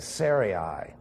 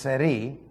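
First: The name is said in an anglicized form. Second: The name is said in its original-language form. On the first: The speaker calls it wrong. "Too often we say Sarai" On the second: The speaker calls it right. "Actually, it's Sarai"

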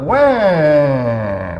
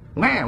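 First: The cry is drawn out in a Southern drawl. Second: The cry is short and plain, without a drawl.

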